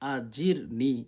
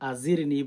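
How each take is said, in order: First: The middle consonant is a clear j sound. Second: The middle consonant is not a j sound. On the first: The speaker calls it right. "আজিরনি জিম উচ্চারণ করতে হবে" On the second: The speaker calls it wrong. "অনেকে আছেন এখানে আজিরনি বলেন"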